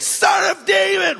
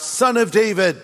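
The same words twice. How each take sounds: First: Loud cry. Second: Said in the usual way. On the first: Retold or imitated. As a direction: shout it much higher and louder, a blind man calling out. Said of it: "really loudly". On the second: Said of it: "he cried out".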